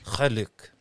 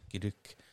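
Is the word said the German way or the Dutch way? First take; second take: Dutch; German. First: It is said as two syllables with a throaty g. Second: It is said as one syllable, German-style. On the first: The speaker calls it right. "so it's the G-E-L-U-K. It's quite phlegmy" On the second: The speaker calls it wrong. "That's a bit of the German accent"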